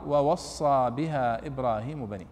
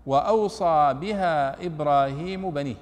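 First: "ووصى" with doubled s, wa-was-saa, slowly; majority reading. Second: "وأوصى" with a long glide aw and single s, slowly; reading of Nafi. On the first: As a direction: recite "ووصى" leaning on the doubled s. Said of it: "بقية القراء". («ووصى» بواوين وصاد مشددة) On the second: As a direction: recite "وأوصى" as aw-saa, unhurried. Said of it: "قرأ هو ونافع". («وأوصى» بهمزة وواو ساكنة وصاد مخففة) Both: Shown as a demonstration.

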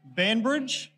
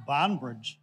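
First: "Banbridge" with a short A, raised and questioning; BAN pronunciation. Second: "Barnbridge" with a long AH, falling; BARN pronunciation. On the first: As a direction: try "Banbridge" with "ban" as in banish, higher pitched. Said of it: "I'm just testing". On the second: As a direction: say "Barnbridge" with first syllable like "barn", as a statement. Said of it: "Oh, yeah, there's no E". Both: Shown as a demonstration.

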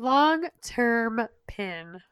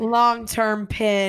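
First: "Long-term pin" stretched out very slowly and quieter; very slow, soft. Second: Drawn out, "Long-term" slow and steady; slow it down like a reminder; slow long-term pin. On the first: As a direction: drag every syllable softly. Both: Shown as a demonstration.

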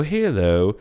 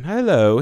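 First: Put-on Southern accent. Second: High-pitched posh British greeting; hoity-toity British accent. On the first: Dialect coach showing British turned Southern, Southern accent. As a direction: slide hello into a Southern accent. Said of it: "drops into a Southern accent". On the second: Retold or imitated. Dialect coach demonstrating the short stretch, British accent. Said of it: "this hoity-toity British accent".

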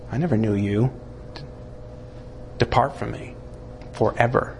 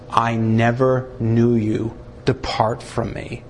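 First: Softer, low, final sentence; hushed Jesus. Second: Jesus speaking at the judgment, slow and grave; Jesus rejecting. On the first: Jesus to the terrified before the throne, hushed and low. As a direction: let it fall quiet and heavy. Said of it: "And Jesus says". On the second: Jesus to the unsaved at the judgment throne, solemn and grave. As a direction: pronounce the sentence solemnly. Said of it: "It's Jesus who's gonna be the one to say". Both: Acted.

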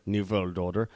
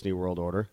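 First: Put-on German accent, W turned to V in "world"; mock German villain accent on "new world order"; fake German accent. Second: Said in the usual way. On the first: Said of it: "very, very fake German accents".

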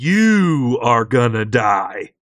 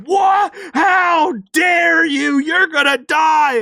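First: Mock menace. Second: Outraged monster. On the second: Retold or imitated. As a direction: scream it at them like an offended monster. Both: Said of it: "this monster's like".

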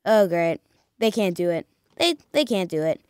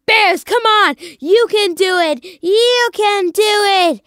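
First: Low, soft resigned grumble; deflated fan. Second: Loud, high rallying shout; pleading fan cheer. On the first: Fan after the Bears fail in overtime, deflated. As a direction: give up on them, voice dropped and quiet. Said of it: "And then you're like". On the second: Fan willing the Bears on in overtime, urgent cheering. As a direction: urge the team on, drawing out the last plea. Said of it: "you're sitting there and you're like". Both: Retold or imitated.

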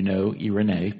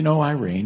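First: "Irene" said the Greek way, ee-reh-NAY; "Irene" in three syllables, ending in nay; Greek pronunciation. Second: Said in the usual way. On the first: Shown as a demonstration. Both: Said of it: "it's pronounced differently".

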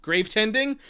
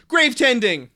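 First: Rising question; asking. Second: Loud, triumphant exclamation; excited. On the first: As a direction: try it out as a question, rising at the end. Tries out a name. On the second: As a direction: shout it out like a discovery. Decides on the name. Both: Real, not acted.

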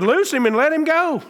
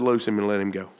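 First: High, ringing command to the dead; commanding Jesus. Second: Low, hushed command, much softer; quiet Jesus. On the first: Preacher voicing Jesus commanding at the tomb, high and ringing. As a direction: call him out of the tomb, high and full. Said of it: "Jesus said to him". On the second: Preacher repeating Jesus's words in a low hush. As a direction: say it low and soft, almost to yourself. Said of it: "Jesus said". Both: Retold or imitated.

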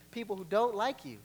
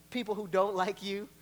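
The two takes are said the same way.

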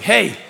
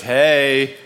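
First: "Hey" lifted high and bright; friendly hey. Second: "Hey" flat and hard, a challenge; confrontational hey. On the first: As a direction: greet with an open, inviting "Hey". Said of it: "But it's like". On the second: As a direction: snap out "Hey" like a call-out. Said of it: "Depending on the intonation". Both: Shown as a demonstration.

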